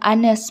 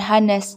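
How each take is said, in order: First: The word begins without an h sound. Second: The word begins with an h sound. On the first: The speaker calls it right. "walaupun diawali dengan huruf H, ya tetapi dibacakan honest" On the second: The speaker calls it wrong. "bukan honest"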